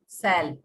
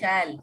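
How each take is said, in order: First: The word begins with an 's' sound. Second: The word begins with a 'sh' sound. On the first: This reflects a regional way of speaking. The speaker calls it wrong. "लेकिन उसको लोग बोलते हैं सैल। सैल तो गलत हो गया" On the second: This is the standard form. The speaker calls it right. "शैल तालाब पे श"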